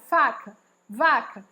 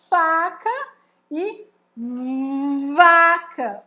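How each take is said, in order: First: The words are said quickly. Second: The words are drawn out and exaggerated.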